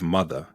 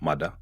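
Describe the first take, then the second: First: The final 'er' sound is fully pronounced. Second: The final 'er' sound is dropped. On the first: "Instead of" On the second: "you'll hear"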